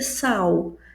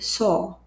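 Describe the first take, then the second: First: The vowel sounds like an open 'ah'. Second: The vowel sounds like a rounded 'oh'. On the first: The speaker calls it wrong. "não vai ser sal" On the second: The speaker calls it right. "A com W normalmente tem som de O"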